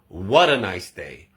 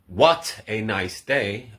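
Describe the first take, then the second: First: The t is pronounced like a quick d. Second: The t is pronounced as a clear t. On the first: The speaker calls it right. "we say" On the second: The speaker calls it wrong.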